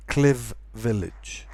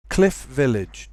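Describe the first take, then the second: First: CLIV VILLAGE with a buzzing V ending CLIV; wrongly voiced ending. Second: CLIFF VILLAGE with a clear F before the V; voiceless F. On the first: Teacher shows the mistake, V sound in CLIV. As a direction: voice the F of cliff into a V. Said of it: "Do not pronounce it". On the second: Teacher gives the model, voiceless F in CLIFF VILLAGE. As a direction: keep the end of CLIFF unvoiced. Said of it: "do not voice the voiceless sound". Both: Shown as a demonstration.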